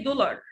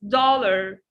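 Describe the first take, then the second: First: The first vowel is not an open 'ah'. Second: The first vowel is an open 'ah'. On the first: The speaker calls it wrong. "Don't say dollar" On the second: The speaker calls it right. "It's dollar, dollar. Do you remember the ah vowel like father?"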